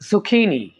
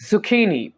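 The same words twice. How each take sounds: Both takes have the same delivery.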